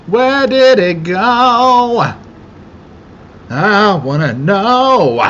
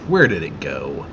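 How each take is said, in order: First: High, loud, slow sing-song whine; silly high voice. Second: Said in the usual way. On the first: Acted. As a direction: stretch it up high like a cartoon. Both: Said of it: "repeated in a different voice".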